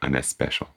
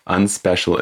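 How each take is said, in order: First: It is said with a Latino accent. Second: It is said with a plain English accent.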